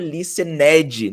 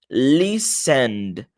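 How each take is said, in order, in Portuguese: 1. O final é uma sílaba completa e separada. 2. O d final é suave e quase não se ouve. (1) "Repara que eu não falo listened, não é esse ned a pronúncia" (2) "você só vai pronunciar o D ali no final de forma bem sutil"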